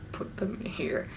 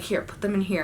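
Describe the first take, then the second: First: Very soft, near-whispered repeat; barely audible, puzzled repetition; hushed echo. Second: Said in the usual way. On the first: Retold or imitated. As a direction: echo it back under your breath. Repeats his instruction in disbelief.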